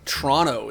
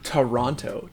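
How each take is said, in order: First: The syllables are squeezed together and reduced. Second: Every syllable is pronounced carefully and fully. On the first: It sounds like a local. The speaker calls it right. "the only acceptable way to enunciate that word" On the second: It sounds like someone not from the city. The speaker calls it wrong. "my tendency to enunciate every word in my shoots almost caused me to say Toronto, which is just cursed"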